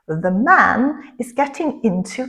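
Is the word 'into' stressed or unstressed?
stressed. The word 'into' is said with stress. Someone is becoming interested in something. "comme ça fait partie du verbe, il faut mettre un accent dessus aussi"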